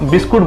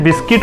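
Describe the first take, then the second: First: The second syllable is said as 'kut'. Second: The second syllable is said as 'kit'. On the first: This is how the speaker has said it since childhood. "मैं बचपन से बिस्किट को बिस्कुट बोलता रहा हूँ" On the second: This is how the word is usually pronounced. "Pronounce करते हैं बिस्किट"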